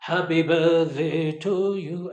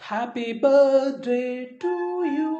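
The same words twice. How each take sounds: First: The greeting is said with a falling tune. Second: The greeting is said with a rising tune. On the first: The speaker calls it wrong. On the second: The speaker calls it right. "ఇది బాగుంటుంది"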